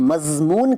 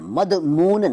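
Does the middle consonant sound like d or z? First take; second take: z; d. First: The middle consonant is a z sound. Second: The middle consonant is a d sound. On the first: The speaker calls it right. "हम मज़मून कहते हैं" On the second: The speaker calls it wrong. "मदमून नहीं कहते"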